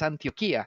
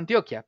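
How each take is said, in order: First: The stress falls on the syllable with 'i'. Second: The stress falls on the syllable with 'o'. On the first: This is the original pronunciation of the name. The speaker calls it right. "la pronunciación correcta es Antioquía" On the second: This is how locals say it. The speaker calls it wrong. "nosotros le decimos Antioquia"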